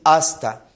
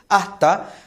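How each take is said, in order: First: The s before the t is clearly pronounced. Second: The s before the t is aspirated. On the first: It suits a formal oral presentation. "se debe procurar decir hasta" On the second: It reflects a regional speech habit. "hacen una aspiración de la S al final de sílaba"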